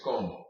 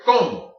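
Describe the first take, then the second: First: Como with both O's equally weighted; level, unaccented como; even stress. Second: COMO with a loud first O; first O harder in como; stress on first syllable. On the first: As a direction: say como evenly, neither syllable punched. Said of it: "saying the two O's equally". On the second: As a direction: punch the CO in como, drop the MO. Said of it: "saying the first O harder". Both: Shown as a demonstration.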